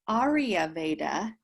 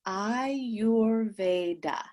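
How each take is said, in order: First: The word begins with the sounds 'Arya'. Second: The word begins with the sounds 'Ayur'. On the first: The speaker calls it wrong. "it's not Arya Veda" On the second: The speaker calls it right. "That is the proper pronunciation of Ayurveda"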